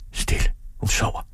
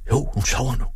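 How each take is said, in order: First: Hushed, voiceless whisper. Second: Higher-pitched, voiced assurance; decided. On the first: Father hushes over the sleeping mother, whispering. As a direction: whisper so as not to wake her. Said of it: "hviskede han". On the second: Father settles that mother is asleep, decided. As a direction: conclude it with conviction. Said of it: "sluttede han bestemt". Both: A narrator's reading.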